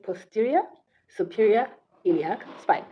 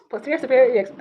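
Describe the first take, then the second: First: It is said slowly and carefully. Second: It is said fast and stumbles.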